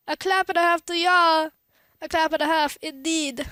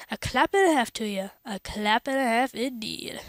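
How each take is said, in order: First: Read weird. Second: Said in the usual way. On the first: Acted. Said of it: "I read that weird". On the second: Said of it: "that's what it sounded more like".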